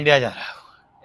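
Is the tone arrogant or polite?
arrogant. It is said in an arrogant, haughty tone. The speaker calls it wrong. "इतनी आकर से बोल रहा इंडिया जा रहा हूँ।"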